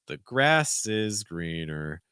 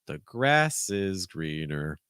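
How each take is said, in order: First: The stress falls on the word grass. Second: The stress falls on the word grass.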